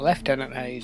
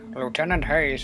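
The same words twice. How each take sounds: First: Lieutenant is said the British way. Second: Lieutenant is said the American way.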